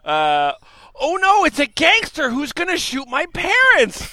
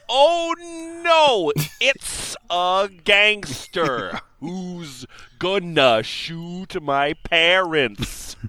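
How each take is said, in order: First: The words are spoken casually, with relaxed articulation. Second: Every word is spoken with exaggerated, crisp articulation.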